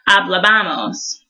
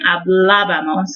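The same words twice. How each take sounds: First: The stress is not on the second syllable. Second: The stress is on the second syllable. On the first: The speaker calls it wrong. "instead of" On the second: The speaker calls it right. "put a little emphasis over that first A in the ending"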